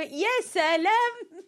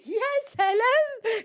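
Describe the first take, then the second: First: High, loud, slow sarcastic "يا سلام" with a laugh; sarcastic laughing wow; mock sarcastic wow. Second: Very high, loud, slow sarcastic "يا سلام"; exaggerated disbelief wow; mocking wow. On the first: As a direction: drag out "يا سلام" in mocking disbelief. Mocking a listener's comment. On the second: Repeats mocking exclamation. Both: Real, not acted.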